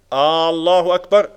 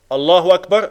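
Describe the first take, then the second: First: The opening vowel is drawn out long. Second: The opening vowel is kept short. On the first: It asks whether God is the greatest. The speaker calls it wrong. "Är Allah störst? ... Men det blir längre" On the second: It states that God is the greatest. The speaker calls it right. "Allah är störst"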